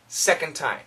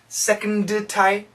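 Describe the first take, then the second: First: The d runs straight into the t. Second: The d is released separately before the t. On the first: The speaker calls it right. "this D sound actually connects to the T" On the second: The speaker calls it wrong.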